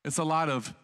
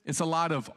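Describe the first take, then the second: No difference in how they are said.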